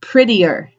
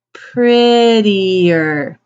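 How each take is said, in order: First: Said in the usual way. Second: "Prettier" stretched very slowly; drawn-out model word. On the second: Shown as a demonstration. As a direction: stretch out every syllable of "Prettier" for learners.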